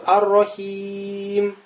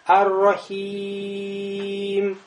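First: The vowel before the final m is slightly lengthened. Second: The vowel before the final m is stretched very long. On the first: "Ат-Тавасут. ... Немножко тянем" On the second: "Алишба. Тянем много"

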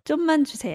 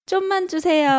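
First: The request is said in a plain, neutral way. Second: The request is said in a cute, sweet way.

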